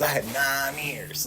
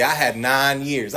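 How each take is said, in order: First: Softer, slow echo of the boast; quiet repeat. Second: Said in the usual way. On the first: Retold or imitated. A man repeating his clean time to himself, soft and slow. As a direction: let it fall away hollow.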